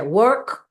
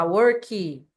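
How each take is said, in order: First: Crisp work with a bare final k; correct English. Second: Mock Brazilian mispronunciation of work, ending in worki; Brazilian extra vowel. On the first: Teacher correcting students, clean work. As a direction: work ending cleanly on the k, no added vowel. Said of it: "Não, gente, é work". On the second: Teacher imitating students adding a vowel: worki. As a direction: work said as worki, with an added i after the k. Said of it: "é colocar uma vogal depois das consoantes". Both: Shown as a demonstration.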